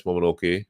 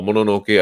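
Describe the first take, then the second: First: Mononoke said as "Momonoke"; two-M pronunciation. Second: Mononoke said as "mo-no-no-keh"; two-N pronunciation. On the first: Guest unsure of the film's name, Mononoke said "Momonoke". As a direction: say Mononoke with a second M: mo-mo-NO-keh. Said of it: "I always forget which one to say it". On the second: Guest trying the other name, Mononoke with two Ns. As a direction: say Mononoke with N after the first syllable. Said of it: "it's two M or two N". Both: Shown as a demonstration.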